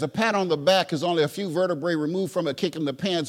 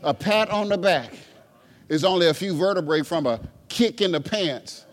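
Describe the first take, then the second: First: It is said fast. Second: It is said slowly.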